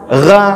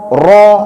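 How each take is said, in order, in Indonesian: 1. Vokalnya tipis dan terdengar seperti a. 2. Vokalnya tebal dan terdengar dekat dengan o. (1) "Nggak bisa kita baca ra" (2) "huruf tebal itu memang bunyinya o"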